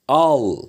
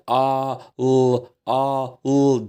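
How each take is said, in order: First: The two sounds are blended into one syllable. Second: The two sounds are said separately with a pause. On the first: The speaker calls it right. "al diyesiye kadar" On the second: The speaker calls it wrong. "böyle a, l demeden"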